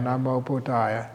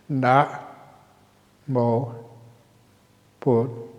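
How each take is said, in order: First: The syllables run together without pauses. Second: Short pauses separate the syllables.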